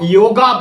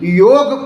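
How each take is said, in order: First: The word ends with an added 'a' vowel. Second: The word ends on the 'g' consonant. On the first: The speaker calls it wrong. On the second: The speaker calls it right.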